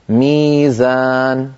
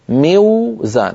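First: A long ee follows the first consonant. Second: A w sound follows the short i. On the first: This is the form actually used. The speaker calls it right. "يقلبون هذه الواو من أجل الكسرة التي قبلها إلى ياء فيقولون ميزان" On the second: This is the form expected from the root. The speaker calls it wrong. "لابد أن نقول ميوزان"

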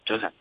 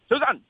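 First: The greeting is said quietly and restrained. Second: The greeting is said loudly and energetically. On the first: Energy has dropped by midweek. "即系内敛啲啊" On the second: It is the start of the week. "有阵时礼拜一咧又会咧大声啲啊"

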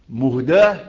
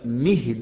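First: The word ends with a long 'aa' vowel. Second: The word ends with a long 'ee' vowel. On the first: He is a gift given by God. "ده اسم مفعول يعني الله هو الذي أهداه إلينا" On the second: He is a mercy who guides people. "ده اسم فاعل، يعني أنا رحمة أهدي الناس"

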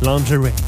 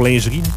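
First: The word is said with an American English accent. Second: The word is said with a French accent. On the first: "ils disent genre lingerie" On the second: "Pour lingerie"

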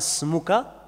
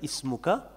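First: The word starts directly with an s sound. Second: The word starts with a glottal stop and vowel. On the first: The word is linked to the word before it. "on fait la liaison" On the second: The word is said on its own. "normalement il y a une hamza"

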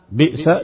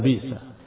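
First: A glottal stop follows the first vowel. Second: A long vowel replaces the glottal stop.

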